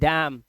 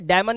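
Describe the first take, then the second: First: The word ends on the m sound. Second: The word ends with an n sound. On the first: The speaker calls it right. "इसे बोलेंगे डैम" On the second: The speaker calls it wrong. "डैमन या डैमिन नहीं बोलेंगे"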